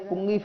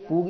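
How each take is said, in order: First: A nasal sound comes before the g. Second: A long vowel, with no nasal before g. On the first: The speaker calls it wrong. "यहाँ पूगी फलम की जगह पुंगी फलम बोलते हैं" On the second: The speaker calls it right. "थोड़ा शुद्ध उच्चारण करके बोलना चाहिए"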